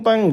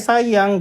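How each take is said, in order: First: The word begins with a t sound. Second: The word begins with an s sound. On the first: It imitates baby talk. The speaker calls it wrong. "jangan tiap ini tayang tekali" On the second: It is the normal adult pronunciation. The speaker calls it right. "Jadi harus sayang ya sayang gitu"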